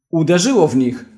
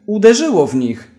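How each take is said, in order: First: Raised, eager call out; a first, slightly raised cry of triumph; excited shout. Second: Higher and louder, full yell; triumphant shout. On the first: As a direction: announce the hit with excitement. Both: A narrator's reading. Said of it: "krzyknął i się zaśmiał".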